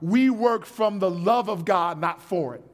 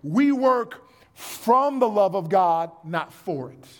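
First: It is said at a normal pace. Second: It is said more slowly.

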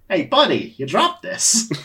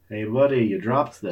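First: It is read in a put-on character voice. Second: It is read in the plain narrating voice.

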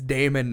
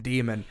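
First: The first vowel sounds like "day." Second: The first vowel sounds like "dee." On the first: The speaker calls it right. "It makes the A noise. ... And it's Damon" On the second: The speaker calls it wrong. "not demon"

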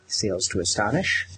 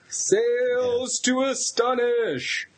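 First: It is said plainly, with little energy. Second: It is said loudly, with lots of energy.

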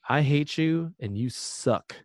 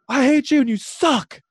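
First: It is said quietly in a chill, calm way. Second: It is said with loud, crazy intensity.

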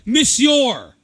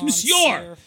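First: It is said with an American accent. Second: It is said with a French accent. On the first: "That's a fucking American accent" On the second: "It's Monsieur"

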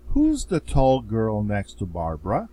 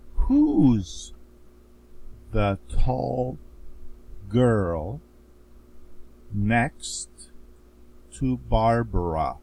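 First: The sentence is spoken at a fast pace. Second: The sentence is spoken at a very slow pace. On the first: "me at a faster pace" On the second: "So now I'm going to read this very slowly"

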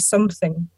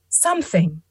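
First: Parts of the word are chopped or blended. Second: Every sound of the word is said carefully. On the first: "I can't even do it in my accent because I say" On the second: "when you go on the like the Macmillan Dictionary or the Cambridge Dictionary and play the little recording, it'll be like"

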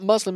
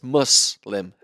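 First: The middle consonant is a voiced z sound. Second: The middle consonant is a voiceless s sound. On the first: The speaker calls it wrong. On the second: The speaker calls it right. "You pronounce the s, not the z"

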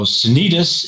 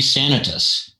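First: The stress is on the second-to-last syllable. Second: The stress is not on the second-to-last syllable. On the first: It follows the Spanish pronunciation. The speaker calls it wrong. "the Spanish pronunciation, accent on the second to the last syllable" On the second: It follows the Latin origin of the name. The speaker calls it right. "So the correct pronunciation would be Sanitas"

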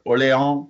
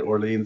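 First: The name is said with a French pronunciation. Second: The name is said with an English pronunciation. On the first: "They got Orléans" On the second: "But they don't say it Orleans"

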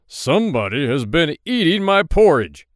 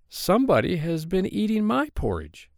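First: A big, gruff, deep voice is used. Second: A middle-sized, medium-pitched voice is used.

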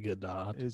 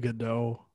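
First: The name is given a non-French pronunciation. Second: The name is given a French-style pronunciation. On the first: "I think it might be Gadot" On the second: "I pronounce it the French way"

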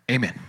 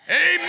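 First: It is said quietly and briefly. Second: It is shouted long and loud.

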